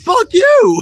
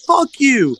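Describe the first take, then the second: First: Very high, shouted comeback; high-pitched imitated shout; retold shouted retort. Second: High, half-voiced childish scream; retold kid's scream. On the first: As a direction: yell it back in mock outrage. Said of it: "I looked at you and I was like". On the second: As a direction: imitate a kid yelling, held back. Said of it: "he screamed".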